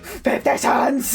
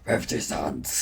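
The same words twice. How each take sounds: First: It is said in a normal voice. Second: It is said in a demonic voice.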